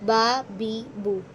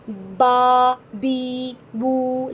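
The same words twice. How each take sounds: First: The vowels are short, soft and even. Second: The vowels are stretched out long. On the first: The speaker calls it right. "नरमी से अदा करेंगे" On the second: The speaker calls it wrong. "लंबा लंबा करके"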